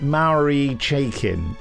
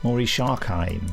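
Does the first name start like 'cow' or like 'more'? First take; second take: cow; more. First: The first name starts with a 'mow' sound. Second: The first name starts with a 'maw' sound. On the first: The speaker calls it wrong. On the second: The speaker calls it right.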